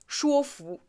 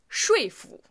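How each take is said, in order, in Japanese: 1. 最初の音節は「shuo」と発音します。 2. 最初の音節は「shui」と発音します。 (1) "说服じゃないですよ。" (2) "说服と発音します。"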